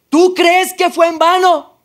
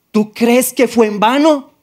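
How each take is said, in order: First: Much higher, louder and slow, the voice thundering; voice raised further. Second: Higher, louder and slow, God raising his voice; slow, booming rebuke from above; raised voice. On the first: The Lord asks him a second time, thundering raised voice. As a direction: repeat the rebuke even bigger, booming. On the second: The Lord calling to him in the street, raised voice. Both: Retold or imitated. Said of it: "Fue la única vez que me alzó la voz".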